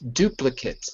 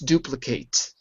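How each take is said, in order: First: The last syllable sounds like 'kit'. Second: The last syllable sounds like 'kate'. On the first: It is used as a noun or adjective. "it's pronounced as an I. Kit" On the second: It is used as a verb. "if you change it to a verb, it's duplicate"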